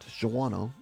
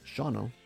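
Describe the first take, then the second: First: The town name is said the outsider way. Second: The town name is said the local way. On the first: This is how many outsiders say it. The speaker calls it wrong. "not Shawano, as so many people say" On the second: This is how the locals say it. The speaker calls it right. "it's pronounced Shawano"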